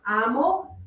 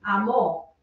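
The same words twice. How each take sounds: First: Amo said A-mo, slowly; stress on first syllable. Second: Amo said a-MÓ; stress on final syllable. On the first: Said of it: "written accent mark". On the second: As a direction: put the weight on the last O of amo. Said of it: "those accent marks are important". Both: Shown as a demonstration.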